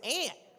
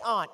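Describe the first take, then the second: First: The word is said in a Southern accent. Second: The word is said in a Seattle accent. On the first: "but in down here, it's aunt" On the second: "I say aunt because I'm from Seattle"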